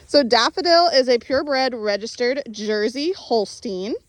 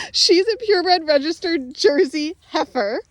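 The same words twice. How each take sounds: First: Said in the usual way. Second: "heifer" said through a light laugh, voice up; laughing correction. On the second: Real, not acted. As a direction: correct the word "heifer" while laughing at yourself. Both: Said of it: "like I was trying to say".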